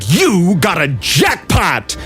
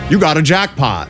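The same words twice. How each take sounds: First: It is performed with lively, varied inflection. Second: It is read flatly with little inflection. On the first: The line is truly performed. The speaker calls it right. "Instead of being like, you got a jackpot. Like, that's a call out" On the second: The line is just being read off a page. The speaker calls it wrong. "you can tell that they're just reading off a piece of paper"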